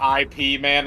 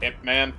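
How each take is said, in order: First: Ip is spelled out as two letters. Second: Ip is said as one short syllable. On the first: The speaker calls it wrong. "I pronounce it I P Man instead of Ip Man" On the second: The speaker calls it right. "instead of Ip Man"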